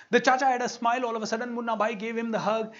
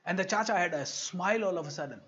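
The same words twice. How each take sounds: First: Higher, louder and fast; excited emphasis. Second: Said in the usual way. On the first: Shown as a demonstration. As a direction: burst out with delight at the change. Repeats line for emphasis.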